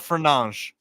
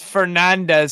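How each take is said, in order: First: The surname is said in the Portuguese way. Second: The surname is said in a non-Portuguese way. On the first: The speaker calls it right. "That's how his name's pronounced" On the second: The speaker calls it wrong. "not Fernandes. No, it's Portuguese"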